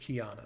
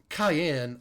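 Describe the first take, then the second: First: The name sounds like key-ah-na. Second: The name sounds like the word cayenne. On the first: The speaker calls it right. "You probably pronounce this Kiana" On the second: The speaker calls it wrong. "Cayenne is incorrect"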